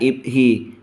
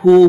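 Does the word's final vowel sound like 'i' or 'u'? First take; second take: i; u. First: The word ends with an 'i' vowel. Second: The word ends with a 'u' vowel. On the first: The word is in the genitive case. The speaker calls it wrong. "bukan ibhi" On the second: The word is in the nominative case. The speaker calls it right. "Seharusnya hu"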